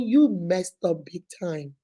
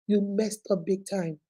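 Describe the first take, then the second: First: Slow, with weight on you; stern slow rebuke; firm scolding. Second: Slow and much softer, pressing the point; quiet disappointed echo; softer repeat. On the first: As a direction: lay the blame on him slowly. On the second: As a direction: drop the voice and drive it home. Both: Real, not acted.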